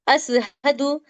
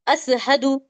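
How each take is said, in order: First: The middle consonant is an 's' sound. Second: The middle consonant is an 's' sound.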